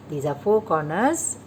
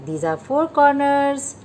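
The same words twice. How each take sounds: First: Said in the usual way. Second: "four" lifted and leaned on, a touch louder; stress on four. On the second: Shown as a demonstration. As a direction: point at each corner and hit "four". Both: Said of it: "teacher repeats counting corners".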